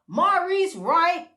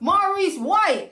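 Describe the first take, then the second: First: The surname begins with an R sound. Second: The surname begins with a W sound. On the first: The speaker calls it wrong. "I've been saying it wrong all along" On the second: The speaker calls it right. "Did I say it right?"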